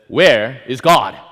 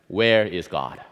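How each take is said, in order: First: The question is asked a little louder. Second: The question is asked at normal volume.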